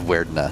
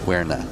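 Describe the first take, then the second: First: The name is said with a d sound. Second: The name is said without a d sound. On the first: "Instead of Werdna" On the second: "I say it without the D"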